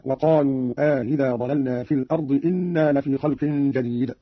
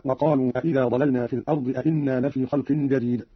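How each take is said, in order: First: Slow, "أإذا" with eased second hamza, "إنا" with just one; measured demo, single hamza on "إنا"; question then statement. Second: Said in the usual way. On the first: Shown as a demonstration. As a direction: say "إنا" as a plain inna after questioning "أإذا". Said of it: "والإخبار في الثاني أي بهمزة واحدة". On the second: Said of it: "قرأ قالون بالاستفهام في الأول".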